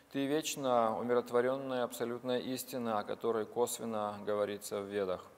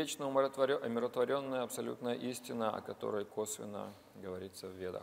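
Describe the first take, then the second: No difference in how they are said.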